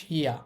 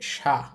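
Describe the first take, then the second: First: It is said as two separate sounds, shi-ya. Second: It is said as one merged sound, sha. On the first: The speaker calls it wrong. "হওয়ার কথা ছিল শিয়া, কিন্তু এটা শিয়া হবে না" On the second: The speaker calls it right. "এটা হবে সা"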